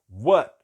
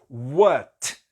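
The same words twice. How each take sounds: First: The final T is held back in the throat. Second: The final T is fully released. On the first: "segurar o T na garganta" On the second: "soltando todo esse T"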